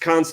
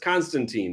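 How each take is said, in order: First: The last syllable sounds like 'tine'. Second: The last syllable sounds like 'teen'. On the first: The speaker calls it right. "John says it's Constantine" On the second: The speaker calls it wrong. "it's spelled um, T E E N"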